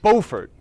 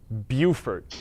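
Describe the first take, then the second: First: It is pronounced in a French way. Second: It is pronounced in an American way. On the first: The speaker calls it right. "No, it's Beaufort" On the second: The speaker calls it wrong. "we butcher the French language as Americans"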